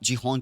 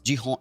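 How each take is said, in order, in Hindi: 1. नाम की शुरुआत J ध्वनि से होती है। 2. नाम की शुरुआत J ध्वनि से होती है।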